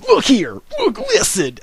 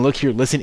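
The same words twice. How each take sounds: First: High, loud mock catchphrase; exaggerated high-pitched imitation; Wings of Redemption. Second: Said in the usual way. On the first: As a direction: yelp it out like a mocking impression. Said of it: "when he says". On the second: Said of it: "him saying".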